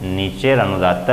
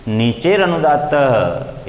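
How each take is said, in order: First: Said in the usual way. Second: नीचेर अनुदात्त drawn out slowly, each syllable spaced; slow deliberate sutra. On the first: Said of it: "अनुदात्त संज्ञा करने वाला सूत्र है". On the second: Shown as a demonstration. Teacher slowly reciting the sutra to his students. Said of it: "इसका अर्थ होगा".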